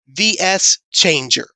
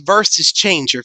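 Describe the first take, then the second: First: VS is read as two separate letters. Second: VS is read as the word versus. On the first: The speaker calls it right. "if you pronounce the letters separately" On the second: The speaker calls it wrong. "it's not a versus changer"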